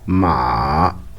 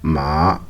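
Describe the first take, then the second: First: The pitch dips low, then rises again. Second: The pitch rises from middle to high. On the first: "une descente suivie d'une remontée" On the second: "une montée de la voix, comme une question"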